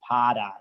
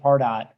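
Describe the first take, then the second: First: The name is said in a Boston accent. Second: The name is said in a neutral accent. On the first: "that one person from Boston who pronounces it" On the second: "About fifty percent of people pronounce it"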